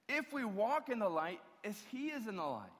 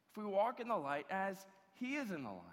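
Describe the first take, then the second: First: "if" leaned on and lifted, the rest falling away; quoting the verse with weight on "if"; stress on IF. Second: "is" pressed in "as he is in the light", said at an even level; second reading with weight on "is"; stress on IS. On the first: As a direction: open with a hard "if" as the condition. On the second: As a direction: land on "is", calmer. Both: Shown as a demonstration. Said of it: "Verse seven".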